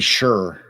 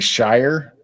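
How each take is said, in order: First: The vowel rhymes with 'sure'. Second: The vowel rhymes with 'fire'. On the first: This is how it is properly said. The speaker calls it right. "it should be sure, pronounced like sure" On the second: This is how Americans say it. The speaker calls it wrong. "We as Americans say Shire"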